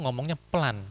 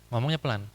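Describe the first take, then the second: The two takes are said the same way.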